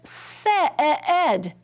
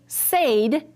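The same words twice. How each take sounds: First: The vowel is a short sound, not long A. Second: The vowel is a long A sound. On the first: The speaker calls it right. "it says said" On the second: The speaker calls it wrong. "it does not say said"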